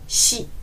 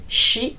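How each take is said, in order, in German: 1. Der sh-Laut ist weich und leicht lispelnd. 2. Der sh-Laut ist hart, wie deutsches sch. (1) "sondern shi. Es ist wie wenn man so ein bisschen lispeln würde" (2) "Nicht shi"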